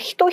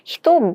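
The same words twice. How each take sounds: First: The second half starts with an h sound. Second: The second half starts with a b sound. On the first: The speaker calls it wrong. "히토가 아니라" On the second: The speaker calls it right. "미토가 되면"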